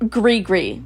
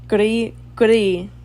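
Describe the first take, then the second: First: The R sound is not rolled. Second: The R sound is rolled. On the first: "that sounds so American" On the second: "Why are you rolling your R?"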